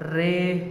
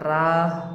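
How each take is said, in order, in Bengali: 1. শব্দটি 'eh' স্বরধ্বনি দিয়ে উচ্চারিত হয়। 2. শব্দটি 'ah' স্বরধ্বনি দিয়ে উচ্চারিত হয়। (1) "অনেকেই এটাকে রেহ বলে" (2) "কিন্তু এখানে রাহ হবে"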